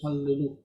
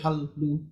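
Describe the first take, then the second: First: A short vowel separates the two L sounds. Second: The two L sounds meet with no vowel between. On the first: The speaker calls it right. "you say hallelu. Like you put the eh to separate it" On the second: The speaker calls it wrong. "But you don't say hal, lu"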